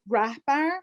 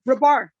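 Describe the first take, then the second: First: The name is said with an H sound. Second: The name is said without an H sound.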